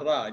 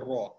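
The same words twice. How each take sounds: First: The ra is pronounced thin and light. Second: The ra is pronounced thick and heavy. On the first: The speaker calls it wrong. "Dia tidak ra" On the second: The speaker calls it right. "Ra baris atas, ra. ... dia ra"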